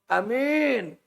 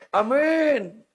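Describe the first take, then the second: First: The first vowel is short, the second long. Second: The same.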